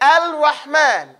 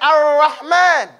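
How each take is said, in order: First: The L sound is heard before the R. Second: The L merges into a doubled R sound. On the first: "You can't even say Al-Rahman. You can try it. Say Al-Rahman" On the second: "If you say it fast, it'll say Ar-Rahman"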